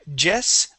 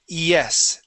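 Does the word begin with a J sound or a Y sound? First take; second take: J sound; Y sound. First: The word begins with a hard J sound. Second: The word begins with a soft Y sound. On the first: The speaker calls it wrong. "It works the same with words like yes. So instead of saying" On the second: The speaker calls it right. "we say"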